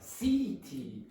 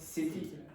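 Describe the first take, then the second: First: The first syllable is said strongly. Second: The first syllable is said weakly. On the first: The speaker calls it wrong. "she went C T" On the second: The speaker calls it right. "but city ... So not strong at all"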